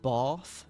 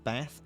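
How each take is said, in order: First: It is said in a posh-sounding accent. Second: It is said in a plain regional accent. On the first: The speaker calls it right. "Like a posh person" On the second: The speaker calls it wrong. "not Bath"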